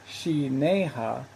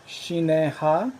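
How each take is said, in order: First: Shineha sounded out slowly, as the other option; alternative pronunciation. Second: Shineha sounded out slowly, as the first option; one possible pronunciation. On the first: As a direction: say Shineha with separated syllables, offering an alternative reading. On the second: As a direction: say Shineha carefully, syllable by syllable, as one possible reading. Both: Shown as a demonstration. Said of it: "intended this word to be pronounced".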